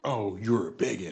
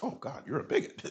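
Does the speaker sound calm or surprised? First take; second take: calm; surprised. First: It is said calmly, without surprise. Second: It is said with sudden surprise.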